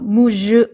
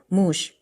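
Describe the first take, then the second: First: The final consonant is voiced and buzzing. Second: The final consonant is voiceless and light. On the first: The speaker calls it wrong. "무즈 하지 말고" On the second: The speaker calls it right. "무쉬 이렇게 가볍게 끝을 내라"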